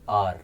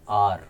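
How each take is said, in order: No difference in how they are said.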